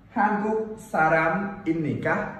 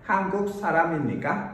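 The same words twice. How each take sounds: First: Said slowly, with the words kept separate. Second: Said quickly, with sounds linked across the words. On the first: "Đọc chậm thì không nối âm nhé" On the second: "Thế còn đọc nhanh nối âm sao?"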